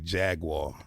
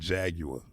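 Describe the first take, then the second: First: It is pronounced the American way. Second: It is pronounced the British way. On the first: The speaker calls it wrong. "you Americans say Jaguar" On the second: The speaker calls it right. "That's how the Brits say it"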